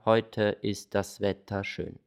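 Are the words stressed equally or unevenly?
equally. Every word is stressed the same amount.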